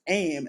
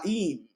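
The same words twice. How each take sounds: First: The vowel sounds like 'eye'. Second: The vowel sounds like 'ee'. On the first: The speaker calls it wrong. "pronouncing this chant wrong as aim" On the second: The speaker calls it right. "is the long E sound, as in need and keep"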